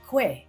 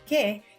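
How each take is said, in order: First: It is said with a w after the k. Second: It is said with a plain k sound, no w. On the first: The speaker calls it wrong. "hindi kwe" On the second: The speaker calls it right. "pinopronounce na ke"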